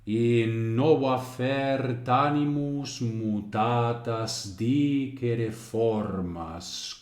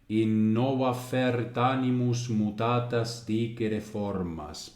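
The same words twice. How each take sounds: First: It follows a regular, even metrical beat. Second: It follows the natural stress of ordinary speech. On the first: "Pero ahora volvemos al ritmo" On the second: "un poco castellanizado para ver un poco cómo iría un ritmo natural que sea hablado"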